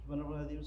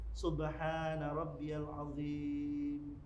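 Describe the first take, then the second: First: The phrase is rushed and run together quickly. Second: The phrase is said calmly and unhurriedly. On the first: The bowing is hurried and not calm. The speaker calls it wrong. "rukuk yang tidak tenang itu seperti ini" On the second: The bowing is calm and settled. The speaker calls it right. "Adapun rukuk yang tenang"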